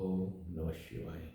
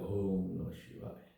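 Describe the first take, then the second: The two takes are said the same way.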